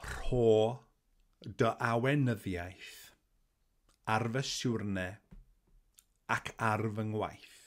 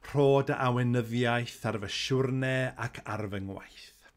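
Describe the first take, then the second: First: The phrase is spoken slowly and carefully. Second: The phrase is spoken at natural speed.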